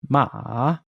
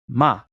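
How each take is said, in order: First: The syllable is said with the third tone. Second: The syllable is said with the fourth tone.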